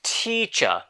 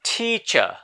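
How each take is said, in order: Both takes have the same delivery.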